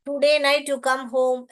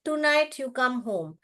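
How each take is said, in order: First: "Today night" said slowly as the wrong example; गलत उदाहरण: "Today night you come home" धीरे से; wrong form, slow. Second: "Tonight" said slowly as the right example; सही उदाहरण: "Tonight you come home" धीरे से; correct form, slow. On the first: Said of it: "ऐसा नहीं बोलना चाहिए". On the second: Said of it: "कैसे बोलना चाहिए?". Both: Shown as a demonstration.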